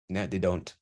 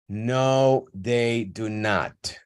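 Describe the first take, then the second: First: The reply sounds flat and neutral. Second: The reply sounds annoyed and emphatic. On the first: It is a plain answer to a question. "this one is completely standard. Okay. Disaffected" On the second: The speaker is tired of being asked again. "here there is affectation... you're going to sound angry or emphatic"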